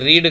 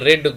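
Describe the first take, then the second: First: It has a long ee vowel, like reed. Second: It has a short e vowel, like red. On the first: The speaker calls it wrong. "ఇది రీడ్ కాదు" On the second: The speaker calls it right. "రెడ్, గతం గురించి నేను మాట్లాడుతున్నాను"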